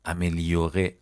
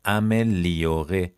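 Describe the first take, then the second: First: Said in the usual way. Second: "Améliorer" stretched out very slowly; syllable by syllable. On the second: Shown as a demonstration. Teacher repeating a new verb for learners, slowly by syllable. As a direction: draw out each syllable of "Améliorer".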